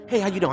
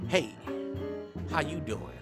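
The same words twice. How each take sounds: First: It is said fast and furiously. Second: It is said slowly and smoothly.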